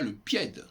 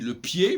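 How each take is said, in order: First: The final d is pronounced. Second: The final d is silent. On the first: The speaker calls it wrong. "on ne dit pas le pied" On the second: The speaker calls it right. "On dit le pied"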